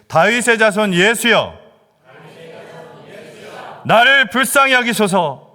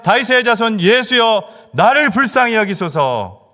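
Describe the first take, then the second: First: It is broken into separate chunks with pauses. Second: It is said joined together without breaks.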